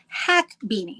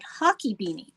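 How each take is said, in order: First: The first word sounds like 'hack', one syllable. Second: The first word sounds like 'hockey', two syllables. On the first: The speaker calls it right. "It's actually hack beanie" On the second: The speaker calls it wrong. "I mispronounced it. I think I was calling it hockey beanie"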